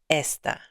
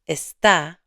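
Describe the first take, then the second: First: The stress is on the first syllable. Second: The stress is on the last syllable. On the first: "Without the accent mark, the word is this" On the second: "note that está has an accent mark"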